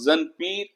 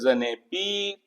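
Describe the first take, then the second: First: The words are joined with no linking vowel. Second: An 'e' vowel links the two words. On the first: The speaker calls it wrong. "ना तो वो रिदम है, ना वो चाशनी है" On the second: The speaker calls it right. "सुनने में भी अच्छा लगता है, एक रिदम पैदा होता है"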